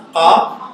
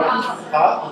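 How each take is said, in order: First: A throaty ha as said in Fes. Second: A lighter, slower ha as said in Casablanca. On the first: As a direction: breathe out a rough back-of-throat ha. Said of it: "it's pronounced like ha". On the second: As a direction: say ha gently, the Casablanca way. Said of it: "or ha". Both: Shown as a demonstration.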